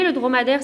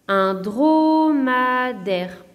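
First: Said in the usual way. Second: "dromadaire" very slow: dro, ma, daire; split into syllables. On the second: Shown as a demonstration. Teacher giving three-syllable examples, "dromadaire" split in three. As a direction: stretch "dromadaire" over three separate beats. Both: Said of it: "trois autres exemples".

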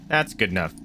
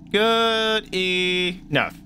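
First: Said in the usual way. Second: Very slow, high drawn-out good enough. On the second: Pretend. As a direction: stretch it out in a silly voice. Drawn-out repeat of phrase.

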